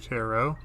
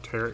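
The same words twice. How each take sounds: First: The word ends like 'arrow'. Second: The word ends like 'carrot'. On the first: The speaker calls it right. "it's actually tarot, like arrow" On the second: The speaker calls it wrong. "I call them tarot cards by mistake"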